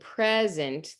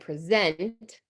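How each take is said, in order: First: The stress is on the first syllable. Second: The stress is on the last syllable. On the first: "the stress is in the front" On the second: "the stress is on the end"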